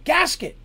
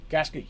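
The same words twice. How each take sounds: First: Sharp high shout across a ship; yelled call. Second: Said in the usual way. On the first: Acted. Game master as captain hailing his navigator, yelling. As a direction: call out loudly for a crewman. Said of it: "yells out of the ship".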